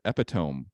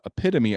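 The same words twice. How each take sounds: First: The word is said with a misread pronunciation. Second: The word is said with its standard pronunciation. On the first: This is how it was actually read aloud. The speaker calls it wrong. "I said epitome" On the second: This is what should have been read aloud. The speaker calls it right. "instead of saying saying um uh epitome"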